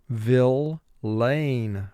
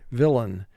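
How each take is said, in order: First: The last syllable is a full 'lane'. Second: The last syllable has a weak, reduced vowel. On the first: This form helps with spelling the word. "the spelling pronunciation for villain is going to be Vill-lane" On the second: This is the normal spoken form. "normally we say villain"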